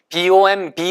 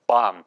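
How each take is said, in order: First: The final b sound is pronounced. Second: The final b sound is silent. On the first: The speaker calls it wrong. "bomb라고 읽으시면 안 돼요" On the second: The speaker calls it right. "B는 묵음입니다"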